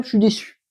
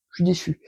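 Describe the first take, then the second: First: Said in the usual way. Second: "Je suis déçu" said much softer, dropping away; quiet repeat. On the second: Real, not acted. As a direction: let "Je suis déçu" fall to a soft, deflated echo. Repeats disappointment twice.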